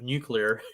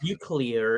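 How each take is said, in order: First: It is said with the standard pronunciation. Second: It is said with a jokey nonstandard pronunciation.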